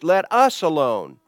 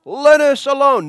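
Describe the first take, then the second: First: "us" picked out, louder; stress on US. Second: High, loud demon's cry. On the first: Shown as a demonstration. Preacher has listeners notice the wording, stressing "us". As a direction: point up the word "us". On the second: Retold or imitated. Unclean spirit cries out at Jesus, loud and high. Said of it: "cried out, saying".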